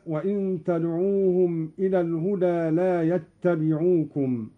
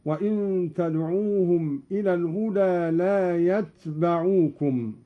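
First: Said in the usual way. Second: يتبعوكم as yatbaʕukum, ta silent and ba with fatha; Qalun reading يتبعوكم. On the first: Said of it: "قرأ قالون بإسكان التاء". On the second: Shown as a demonstration. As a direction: read يتبعوكم with sukun on ta. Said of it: "هكذا".

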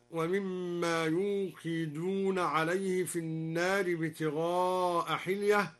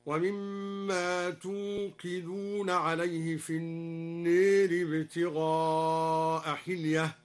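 First: Slow recitation starting يوقدون with a clear y sound; يوقدون with the ya, third person; ya reading. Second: Slow recitation, توقدون begun with a clear t sound; توقدون with ta, addressing the listeners. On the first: Teacher recites the common reading before the variant. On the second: Teacher demonstrates al-Duri's ta of address reading. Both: Shown as a demonstration. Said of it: "قرأ الدوري بتاء الخطاب هكذا".

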